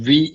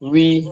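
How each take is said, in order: First: The sound starts with upper teeth on lip. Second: The sound starts with rounded lips opening. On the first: The speaker calls it wrong. "ഇംഗ്ലീഷിൽ പറയുന്ന പോലെ വി എന്നല്ല" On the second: The speaker calls it right. "കൂർപ്പിച്ച് വിടർത്തുമ്പോഴുള്ള ശബ്ദം"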